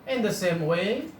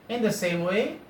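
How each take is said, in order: Both takes have the same delivery.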